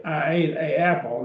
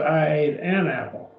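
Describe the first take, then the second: First: "a apple" with two vowels back to back, no n; awkward wrong article. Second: "an apple" linked by an n; corrected article. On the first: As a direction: keep "a" separate before "apple", unlinked. We don't say. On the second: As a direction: break up the vowels in "an apple" with n. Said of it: "We put an N in there". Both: Shown as a demonstration.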